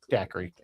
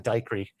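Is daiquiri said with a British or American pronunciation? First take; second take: American; British. First: It is said with an American pronunciation. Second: It is said with a British pronunciation.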